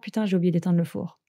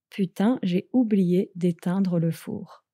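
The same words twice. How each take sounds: First: It is said fast. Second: It is said at normal speed.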